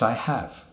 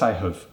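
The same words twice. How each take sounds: First: The word 'have' is full and stressed. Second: The word 'have' is reduced and unstressed. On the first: The speaker calls it right. "we would say have. We wouldn't use the weak form" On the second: The speaker calls it wrong. "We wouldn't say, ... Can't do it"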